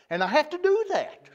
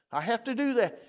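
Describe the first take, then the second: First: Firm preacher's emphasis on the word do; emphatic insistence. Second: Said in the usual way. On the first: Shown as a demonstration. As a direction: insist you have to do it.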